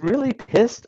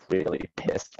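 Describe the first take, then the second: First: "really pissed" pitched up high in disbelief; can you believe someone said this; mock-incredulous repeat; incredulous quote. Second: "Really pissed" dropped low and breathed out under the breath; muttered aside, savouring the words; low whispered echo; whispered repeat. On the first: Mocks the phrase as technical term. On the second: Acted. Repeats the phrase to himself.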